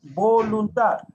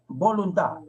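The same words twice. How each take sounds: First: Slow, loud "voluntad"; emphatic teacher's "voluntad", higher and louder; drawn-out key word. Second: Said in the usual way. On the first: Shown as a demonstration. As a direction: stretch "voluntad" out syllable by syllable, raised voice. Teacher introduces a key word's meaning.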